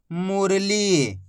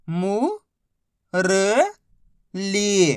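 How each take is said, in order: First: मुरली joined slowly, long ली; blended word. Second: मु, र, ली held apart; syllable by syllable. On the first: Teacher showing the joined word, मुरली said slowly whole. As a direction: blend मुरली without breaks. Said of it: "तो मिलके बन जाएगा". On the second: Teacher modelling reading, मु, र, ली sounded out separately. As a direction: sound out मु... र... ली with pauses. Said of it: "बस इसी तरीके से". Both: Shown as a demonstration.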